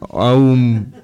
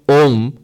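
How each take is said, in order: First: The vowel glides from 'ah' to 'oo' before 'm'. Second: The vowel is a single plain 'o' before 'm'. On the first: The speaker calls it wrong. "So the correct pronunciation is A, U, Ma. Aum. No" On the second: The speaker calls it right. "that's the correct pronunciation actually"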